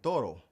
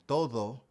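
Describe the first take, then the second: First: The middle consonant is a quick tapped r. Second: The middle consonant is a soft th-like sound. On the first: The speaker calls it wrong. "it actually comes out sounding like an R" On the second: The speaker calls it right. "instead of saying todo"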